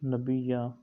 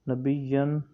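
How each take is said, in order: First: The word ends with a long a. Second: The word ends with an n sound. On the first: The reading stops on this word. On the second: The reading continues without stopping.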